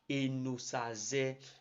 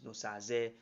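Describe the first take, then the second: First: The name begins with a vowel sound. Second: The name begins with a consonant sound. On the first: The speaker calls it right. "is a vowel sound and not a consonant sound" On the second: The speaker calls it wrong. "it is very wrong"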